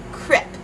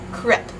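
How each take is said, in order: First: It is said with a Dutch accent. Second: The same.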